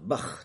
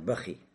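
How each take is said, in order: First: The word ends on a bare kh sound. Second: The word ends with an added i sound. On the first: "либо с сукуном" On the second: "с кесрой, но без тануина"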